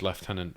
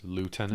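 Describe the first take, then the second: First: It is said in a British accent. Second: It is said in an American accent. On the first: "it's lieutenant for British people" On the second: "Americans say it as lieutenant"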